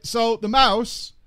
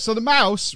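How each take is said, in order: First: "So the mouse" drawn out slowly for effect; slow repeat. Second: Said in the usual way. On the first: Shown as a demonstration. Streamer restarting the story for viewers, slowed and drawn out. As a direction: stretch out "So the mouse" to set up the punchline.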